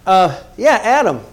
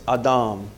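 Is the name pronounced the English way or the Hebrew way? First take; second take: English; Hebrew. First: The name is said with English pronunciation. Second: The name is said with Hebrew pronunciation. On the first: "you're all right" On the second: "if you want to pronounce it correctly in the Hebrew"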